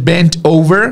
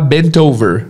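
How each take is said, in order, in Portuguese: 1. As palavras são ditas separadamente. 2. O T se liga à vogal seguinte. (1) "ao invés de" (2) "você sempre ouvirá"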